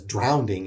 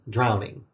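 First: An extra d sound comes before the ending. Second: No extra d sound comes before the ending. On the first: "with a second D sound in the middle" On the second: "instead of drowning"

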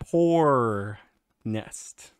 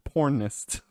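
First: The word has a pause between its parts. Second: The word runs together without a pause.

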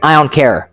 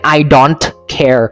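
First: The d drops and the words run together fast. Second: Every sound of don't is pronounced separately and fully. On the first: "เป็น I don't care" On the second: "แทนที่จะเป็น I don't care"

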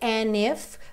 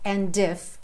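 First: The d is dropped and the words run together. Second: The d at the end of and is pronounced. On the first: "aqui a gente mantém aquela ideia do and if" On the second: "se você quiser cantar o D e disser and if"

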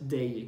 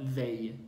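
First: It begins with a d sound, like día. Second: It begins with a voiced th sound. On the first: The speaker calls it wrong. "no es they, que es día" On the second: The speaker calls it right. "sino they, bien pronunciado"

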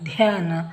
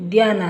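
First: The first consonant has a strong breathy puff. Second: The first consonant has no breathy puff. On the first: The speaker calls it right. "ಈ ಥರ ನಾವು ಹೆಚ್ಚು ಉಸಿರು ಕೊಟ್ಟು ಉಚ್ಚಾರ ಮಾಡಿದಾಗ" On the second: The speaker calls it wrong. "ಇಲ್ಲಿ ಧ್ಯಾನ ಅನ್ನಲ್ಲ"

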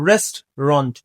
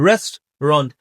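No difference in how they are said.

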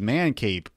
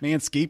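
First: There is no s sound before cape. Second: There is an s sound before cape. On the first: The speaker calls it wrong. "like mispronouncing" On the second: The speaker calls it right. "No. It's Manscape"

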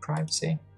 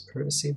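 First: It is said with an American pronunciation. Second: It is said with a British pronunciation. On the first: "in America they call it privacy" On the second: "in England they pronounce it as privacy"

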